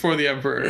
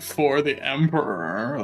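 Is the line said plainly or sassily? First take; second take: plainly; sassily. First: It is said in a plain, matter-of-fact way. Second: It is said in a sassy, mocking way.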